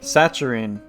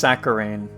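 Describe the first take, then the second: First: The middle consonant is a t sound. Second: The middle consonant is a k sound. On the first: The speaker calls it wrong. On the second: The speaker calls it right.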